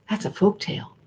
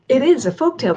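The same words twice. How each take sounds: First: Said in the usual way. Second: "is" punched higher and louder; stress on is. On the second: Shown as a demonstration. Insisting to listeners that the story is a folk tale, stress on "is". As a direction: hit the word "is" hard.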